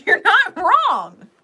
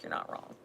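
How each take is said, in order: First: High, loud and slow with a laugh; shouted insistence. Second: Hushed, soft insistence; quiet reassurance. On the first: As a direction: belt out "not wrong", drawn out. Shouted reassurance, repeated later softly. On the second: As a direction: drop it right down and reassure softly. Same reassurance, dropped to quiet. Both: Real, not acted.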